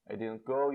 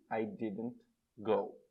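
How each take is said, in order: First: Said in the usual way. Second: Drawn out word by word, I didn't go; teacher models the negative of go to students, very slowly; very slow model sentence. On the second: Shown as a demonstration. Stretch each word of I didn't go for learners.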